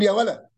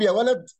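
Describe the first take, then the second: First: The final d sound is dropped. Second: The final d sound is pronounced.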